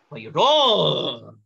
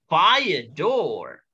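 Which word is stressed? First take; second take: door; fire. First: The second word carries the stress. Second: The first word carries the stress. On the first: The speaker calls it wrong. "Nggak boleh" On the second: The speaker calls it right. "kata depannya yang harus ditekan"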